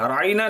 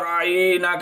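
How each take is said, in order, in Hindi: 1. बीच की 'ain' ध्वनि छोटी और सादी है। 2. बीच की 'ain' ध्वनि खींचकर लंबी की गई है। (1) "राईना नहीं करते" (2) "खींच देते थे आइन को"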